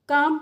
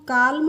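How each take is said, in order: First: The L sound is silent, not pronounced. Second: The L sound is pronounced before the M. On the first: The speaker calls it right. "जो एल है ये ... silent होती है" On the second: The speaker calls it wrong. "काल्म नहीं पढ़ते हैं"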